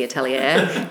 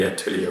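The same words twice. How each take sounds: First: Atelier said in a plain Australian accent, not French. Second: Atelier said the French way, stress on the last syllable; French-style Atelier. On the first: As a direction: Atelier with no French sound, ending in an Australian "-lier-er". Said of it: "compared to my Australian accent". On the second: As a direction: Atelier with a soft French sound, ending in a clear "-lier". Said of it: "it sounds so much nicer when [name] calls it the Atelier". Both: Real, not acted.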